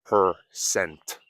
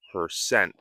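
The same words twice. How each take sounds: First: "percent" in careful syllables with a released T; crisp final T. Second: "percent" ending on the N, T dropped; silent final T. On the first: Teacher showing what not to say, "percent" with hard T. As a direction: pop a clear T ending "percent". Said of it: "and not percent". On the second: Teacher pointing out natural "percent", final T dropped. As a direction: let "percent" stop without releasing the T. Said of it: "I said percent and not percent". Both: Shown as a demonstration.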